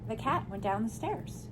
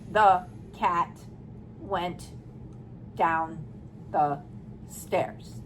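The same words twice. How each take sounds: First: The sentence is read at a smooth, natural pace. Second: Each word is said flatly and separately, like a robot. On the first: The speaker calls it right. "You read it" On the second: The speaker calls it wrong. "That's a robot"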